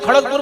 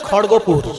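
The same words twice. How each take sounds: First: It is pronounced the way Hindi speakers say it. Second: It is pronounced the way Bengali speakers say it. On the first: The speaker calls it wrong. "Hindi ভাষীরা খড়গপুর বলে" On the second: The speaker calls it right. "আসলে শব্দটা খড়গপুর"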